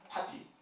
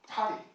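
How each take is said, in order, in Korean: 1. 가운데 자음은 센 t예요. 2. 가운데 자음은 부드러운 탄설음이에요.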